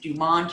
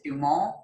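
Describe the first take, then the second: First: The name is said the anglicized, local way. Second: The name is said the French way. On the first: This is how the family says it locally. "we pronounce it Dumont here" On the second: This is how the listener's language says it. "I think you pronounce it Dumont"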